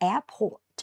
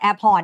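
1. เสียง t ท้ายคำออกเสียงชัดเจน 2. เสียง t ท้ายคำหายไป (1) "ถ้าเราออกเสียงให้ตรงก็คือ ... มีตัว t ด้วยนะลูก" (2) "เนี่ยเป็นแบบเหมือนเราพูดกันทั่วไป"

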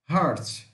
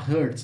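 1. A vogal soa como 'ar' em 'car'. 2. A vogal soa como 'er' em 'her'. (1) "Não é hurt, é heart" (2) "Tem pessoas que pronunciam essa palavra errado, né? Fala hurt"

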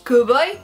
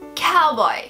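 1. Dit en français, avec des voyelles courtes et nettes. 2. Dit en anglais, avec des voyelles plus douces et glissantes. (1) "en français on va dire cowboy. C'est beaucoup plus sec aussi" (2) "en anglais, it's a cowboy"

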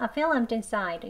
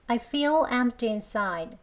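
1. 이 문장은 빠른 속도로 말합니다. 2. 이 문장은 느린 속도로 말합니다.

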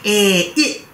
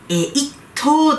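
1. 最後のtは無音で、息を出さずに止めます。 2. 最後のtは母音をつけて、はっきり発音します。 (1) "t がサイレントになりますね" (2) "でも一等ではなくて"

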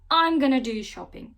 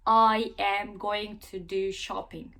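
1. 'Going to' kısaltılarak 'gonna' olur. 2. 'I am going to' ifadesinin her kelimesi tam olarak söylenir. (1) "kısaltma şekline" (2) "Bakın ne kadar uzadı"

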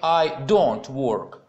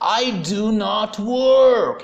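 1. Слова 'do not' сокращаются до 'don't'. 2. Слова 'do not' произносятся полностью. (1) "В разговорной речи это чаще всего сокращается" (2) "вы делаете акцент на этом"

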